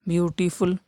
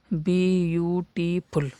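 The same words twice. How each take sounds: First: Said in the usual way. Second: ब्यूटीफुल split slowly into three parts, ब्यू-टी-फुल; syllable split. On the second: Shown as a demonstration. (ब्यूटीफुल को तीन टुकड़ों में धीरे बोलना) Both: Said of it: "तीन हो रहे हैं ना".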